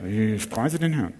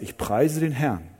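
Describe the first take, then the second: First: 颤抖 Ich preise den Herrn with a shaky, wavering voice; trembling voice. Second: Said in the usual way. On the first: Shown as a demonstration. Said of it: "Du kannst auch zittern dabei". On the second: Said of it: "Du hebst den Hörer und sagst".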